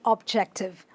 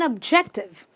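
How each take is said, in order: First: The first vowel is a full O sound. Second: The first vowel is a weak uh sound. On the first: The speaker calls it wrong. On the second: The speaker calls it right.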